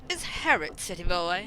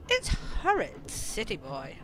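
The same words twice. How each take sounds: First: Lightly refined, lifting at the end; posh voice. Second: Put-on rough-and-ready worker teasing a city boy; coal shoveler's voice. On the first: Acted. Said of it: "you asked for posh". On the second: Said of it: "we can have this kind of voice".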